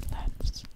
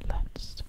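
Both takes have the same delivery.

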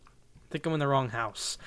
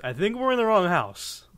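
First: Said in the usual way. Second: High, loud quote voice; exaggerated movie quote. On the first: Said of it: "I just accidentally use". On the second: Gamer redoing an accidentally used quote, hammed-up voice. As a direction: ham up the famous line. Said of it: "that's such a commonly used quote".

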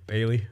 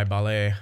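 First: Said in the usual way. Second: "Ballet" said like the dance, bah-LAY; mispronounced as ballet. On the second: Shown as a demonstration. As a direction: say "Ballet" with stress on the last syllable. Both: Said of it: "That Bailey guy".

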